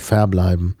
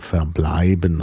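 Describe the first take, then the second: First: The stress is on the first syllable. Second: The stress is on the second syllable. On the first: The speaker calls it wrong. "und nicht verbleiben" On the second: The speaker calls it right. "wir sagen verbleiben"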